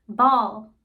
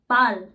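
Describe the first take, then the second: First: Ball said the English way with a rounded aw; ball in American English, round aw vowel. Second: Ball said the German way with an open ah; Ball, German style, short open ah vowel. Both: Shown as a demonstration. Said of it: "For instance".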